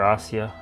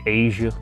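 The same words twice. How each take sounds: First: The name is pronounced a non-American way. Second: The name is pronounced the American way.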